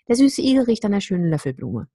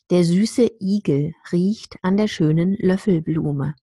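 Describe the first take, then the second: First: It is said quickly, with the words slurred. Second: It is said slowly, with each word clear. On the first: "Much faster, and I would also slur the words" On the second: "I said that in a way that is very, very clear and slow"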